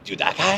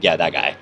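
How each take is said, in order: First: High, rising disbelief on guy; a sudden startled double take; rising surprise on guy; incredulous recognition. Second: Low, falling shrug on guy; dry admission, falling on guy; resigned confirmation. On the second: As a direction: own it with a flat sigh. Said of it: "I'm like". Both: Retold or imitated.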